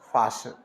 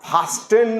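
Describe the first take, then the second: First: The t sound is left out in the middle. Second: The t sound is pronounced in the middle. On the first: The speaker calls it right. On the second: The speaker calls it wrong. "फास्टन नहीं करना"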